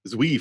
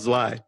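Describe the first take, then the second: First: It is said as two syllables, like zoo-ee. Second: It is said as one syllable, like tsvai. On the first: The speaker calls it wrong. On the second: The speaker calls it right.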